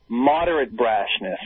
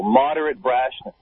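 First: Slow ironic emphasis; sarcastic. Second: Sarcastic. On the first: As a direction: savor the phrase mockingly. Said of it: "first saying of phrase". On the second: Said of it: "repeats ironic phrase slowly". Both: Acted.

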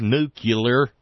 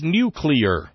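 First: Nuclear said as NOO-kyuh-ler; stubborn mispronunciation. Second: Nuclear said as NOO-klee-er; correct pronunciation. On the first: Retold or imitated. Host mocking Dear Leader's fixation, nuclear said NOO-kyuh-ler. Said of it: "stubborn fixation with". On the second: Shown as a demonstration. Host correcting Dear Leader's word, nuclear said NOO-klee-er. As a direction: pronounce nuclear with "klee" in the middle. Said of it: "told Dear Leader that the word is".

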